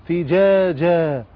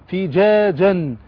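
The two takes are said the same way.

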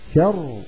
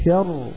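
The two takes are said the same way.

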